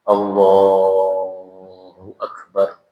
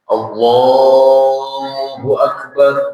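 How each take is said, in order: First: It is said softly, just audible. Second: It is said in a loud voice.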